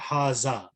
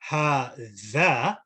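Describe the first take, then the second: First: The middle consonant is a buzzing z sound. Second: The middle consonant is a th sound. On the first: The speaker calls it wrong. "when I say zal" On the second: The speaker calls it right. "So I stick the tongue out"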